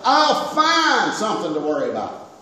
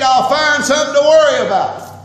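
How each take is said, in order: First: Said in the usual way. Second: Loud preaching. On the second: Real, not acted. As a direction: punch it out loud, the word worry leaning hard on "worry". Preacher repeats line, loud then calm.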